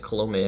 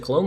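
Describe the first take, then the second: First: "Colome" with a vowel sounded after the m; pronunciation query. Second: "Colom" ending on the m; pronunciation query. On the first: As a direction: try "Colome" as three syllables, ending "may". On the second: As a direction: try "Colom" with no vowel after the m. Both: Shown as a demonstration. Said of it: "how do you say his last name".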